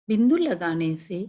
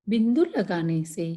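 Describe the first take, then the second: Both takes have the same delivery.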